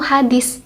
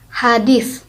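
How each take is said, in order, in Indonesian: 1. Konsonan terakhir adalah bunyi 's'. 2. Konsonan terakhir adalah bunyi 'th'. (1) "memakai huruf S" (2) "belakangnya itu kan pakai sa"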